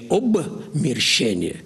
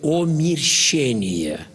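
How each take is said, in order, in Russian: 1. Слово начинается с 'ob' и с 'b'. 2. Слово начинается с 'om' и без 'b'. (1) "Говорю не обмерщение" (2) "Вы извините, что я делаю такую ошибку"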